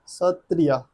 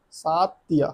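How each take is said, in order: First: Said in the usual way. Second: सातिया with a long saat at the start; mnemonic pronunciation. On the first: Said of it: "आप सत्रिया बोलिए". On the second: Shown as a demonstration. Teacher turns Sattriya into saat for seven and three, saying सातिया with a long saat. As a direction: stretch the first syllable of सातिया into saat. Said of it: "मतलब सात और तीन".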